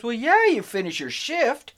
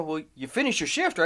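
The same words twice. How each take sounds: First: High, drawn-out "well, yeah"; emphatic concession. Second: Said in the usual way. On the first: Retold or imitated. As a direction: imitate a dad stating the obvious, slowly. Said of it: "And he goes". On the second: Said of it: "I looked at him and I go".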